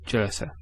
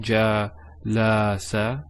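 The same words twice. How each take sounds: First: The vowels are short and quick. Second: The vowels are drawn out long. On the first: The speaker calls it right. "No, jalasa. There's no elongation" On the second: The speaker calls it wrong. "or jalasa"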